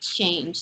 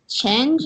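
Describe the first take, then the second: First: The vowel is a clear long A. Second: The vowel is weak, closer to eh. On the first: The speaker calls it right. "it's supposed to be change" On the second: The speaker calls it wrong. "So sometimes it would sound like change"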